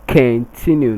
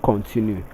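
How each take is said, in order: First: The stress is on the second syllable. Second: The stress is on the first syllable. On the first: The speaker calls it right. "It's continue, ... it is on the second syllable" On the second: The speaker calls it wrong. "not con"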